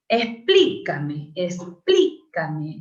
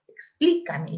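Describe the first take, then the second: First: Slow Explícame, first syllable "Ex" stressed. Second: Explícame pitched up, leaning hard on the first syllable; stress on Explícame. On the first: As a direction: drag out Explícame, hitting "Ex". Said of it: "Es una palabra esdrújula". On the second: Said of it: "todas las esdrújulas". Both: Shown as a demonstration.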